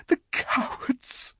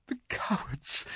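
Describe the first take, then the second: First: Slow, whispered sob rising high; sobbing whisper, breaking high. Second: Tearful, whispered cry of cowards; sobbing whisper. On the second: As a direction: choke out the words in tears. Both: A narrator's reading. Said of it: "sobbed Susan".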